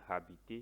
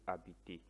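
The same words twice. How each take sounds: First: The initial h is sounded aloud. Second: The initial h is silent. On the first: The speaker calls it wrong. "You don't say habiter" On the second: The speaker calls it right. "silent h. ... you say habiter"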